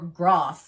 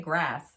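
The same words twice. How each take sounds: First: The word is said in a non-American accent. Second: The word is said in an American accent. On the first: This is how people locally say it. "as people say here" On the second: This is how Americans say it. "But I'm American, so we say grass"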